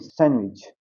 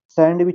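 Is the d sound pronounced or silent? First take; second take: silent; pronounced. First: The d sound is silent. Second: The d sound is pronounced. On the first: The speaker calls it right. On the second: The speaker calls it wrong.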